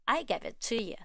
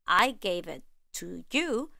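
First: Casual "to you" said as "tuh yuh"; reduced schwa vowels. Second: "to you" said carefully, as "too yoo"; full vowels. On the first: Teacher showing informal conversation, "to you" reduced to schwa. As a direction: relax "to you" into quick uh sounds. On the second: Teacher contrasting careful speech with informal, full vowels in "to you". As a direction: give "to" and "you" their full oo vowels, unhurried. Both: Shown as a demonstration. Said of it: "we even reduce to a simple uh sound the vowels".

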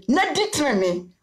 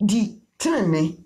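First: Said in the usual way. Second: "Di tenene" drawn out slowly, each syllable weighed; slow, stressed keyword. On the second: Shown as a demonstration. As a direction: lean on "tenene" slowly like a teacher. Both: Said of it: "tie the keyword no".

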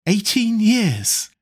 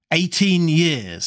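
First: High, slow, gloating disbelief; elated, relieved exclamation; triumphant exclamation. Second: Said in the usual way. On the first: A narrator's reading. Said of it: "laughed Dorian Gray with a touch of triumph".

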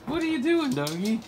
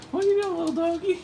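First: Talking to a dog. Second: Even higher cooing at the dog; talking to a dog. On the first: Repeated baby talk to dog. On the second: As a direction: squeal it to the puppy. Repeated baby talk, higher. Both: Real, not acted.

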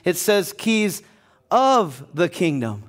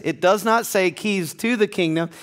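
First: "of" stressed and slowed in "keys of the kingdom". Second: Said in the usual way. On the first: Shown as a demonstration. Pastor correcting the verse, stressing "of" slowly. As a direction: lean on "of" and draw "of the kingdom" out slowly.

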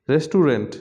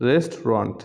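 First: রেস্টুরেন্ট in three syllables, "res-tu-rent"; common mispronunciation. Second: রেস্টুরেন্ট in two syllables, "REST-ront"; correct pronunciation. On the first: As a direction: say every syllable of রেস্টুরেন্ট as written. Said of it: "common কিছু শব্দের". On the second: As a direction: drop the middle vowel of রেস্টুরেন্ট. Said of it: "ও সঠিক উচ্চারণ". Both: Shown as a demonstration.

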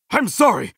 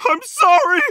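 First: Lower, gentle sorry; concerned apology. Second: Higher, distressed cry of sorry; pained apology. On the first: Hero checking on someone hurt, low gentle apology. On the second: Game hero apologising in distress, pained and high. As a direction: blurt out a pained apology, voice raised. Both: Acted.

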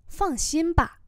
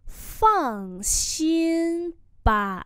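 First: Said in the usual way. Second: Very slow, held tones; slow teacher's demonstration; slow model pronunciation. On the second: Shown as a demonstration. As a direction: draw out each syllable. Teacher repeats phrase slowly.

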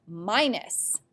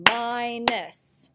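First: Said in the usual way. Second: "Minus" in two drawn-out beats, mi-nus; clapped-out syllables. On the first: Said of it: "Here's the word minus". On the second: Shown as a demonstration. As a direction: sound out both syllables of "Minus". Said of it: "We can clap them out".

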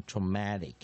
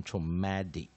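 First: Traumatic with a clear voiceless t in "-tic". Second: Traumatic said like "tro-MAD-ic"; T voiced as D. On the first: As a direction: say the T in traumatic as a crisp t, not d. (traumatic 里的 T 念成无声的 t) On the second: (traumatic 里的 T 念成有声的 d) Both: Shown as a demonstration. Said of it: "他很喜欢就把无声的T念成有声的D".

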